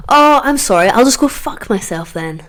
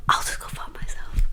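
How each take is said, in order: First: Sarcastic retort. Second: Soft bitter repeat, almost voiceless; whispered sarcastic echo; whispered aside. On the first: Sarcastic comeback to the police. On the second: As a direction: mutter it under the breath. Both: Retold or imitated.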